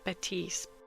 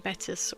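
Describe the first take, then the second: First: The last syllable does not rhyme with 'piss'. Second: The last syllable rhymes with 'piss'. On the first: The speaker calls it wrong. "For some reason I thought his surname was pronounced Batiste" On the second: The speaker calls it right. "it assured me Battis was correct"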